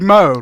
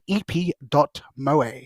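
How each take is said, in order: First: The word sounds like the English name Mo. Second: The word is pronounced in a Japanese way. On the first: "Like like Mo, like Mo, like the character from The Simpsons" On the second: "I pronounced it Japanesely instead of Englishly"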